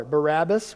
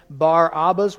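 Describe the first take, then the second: First: Barabbas run together as "buh-RAB-us"; country dialect pronunciation. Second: Barabbas said as "BAR AH-bus"; Bar-Abbas, original form. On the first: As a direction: say Barabbas as one word, flat A in the stressed middle. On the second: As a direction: split Barabbas into "bar" and "abbas", open AH in both. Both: Shown as a demonstration. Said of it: "we say it in the country dialect".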